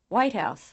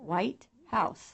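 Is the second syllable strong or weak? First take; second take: weak; strong. First: The first syllable is much louder than the second. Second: The second syllable is almost as loud as the first. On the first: "the left column items" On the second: "the right column items louder and clearer"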